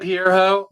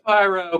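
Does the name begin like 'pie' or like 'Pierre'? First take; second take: Pierre; pie. First: The name begins with a 'Pierre' sound. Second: The name begins with a 'pie' sound. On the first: The speaker calls it wrong. "that's not how we pronounce it" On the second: The speaker calls it right. "we know it's Pyro"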